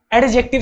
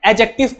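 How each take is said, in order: First: "एडजेक्टिव" with the D audibly pronounced; wrong sounded D. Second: "एडजेक्टिव" as a-jective, D left silent. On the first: Student answering teacher's question, "एडजेक्टिव" with an audible D. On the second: Teacher correcting a student, "एडजेक्टिव" with silent D. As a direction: drop the D in "एडजेक्टिव". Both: Shown as a demonstration. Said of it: "इसमें जो डी होता है वो silent होता है".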